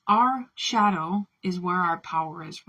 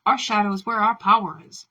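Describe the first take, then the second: First: Said in the usual way. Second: Bold declaration. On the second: Shown as a demonstration. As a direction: proclaim it loudly, like a manifesto. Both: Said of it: "and saying".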